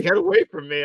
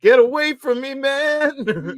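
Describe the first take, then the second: First: Lightly acted, higher-pitched plea; mock alarm, only partly performed; quick imitation of fending someone off; imitated sheriff. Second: High, loud mock-horrified cry; hammed-up yell of revulsion, pitched way up; panicked RoboCop victim. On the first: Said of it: "he's like". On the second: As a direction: wail it in exaggerated panic. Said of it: "where he's, like, covered in acid".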